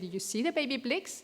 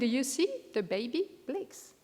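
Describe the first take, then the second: First: Baby blicks runs together as one phrase. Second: A phrase break falls between baby and blicks.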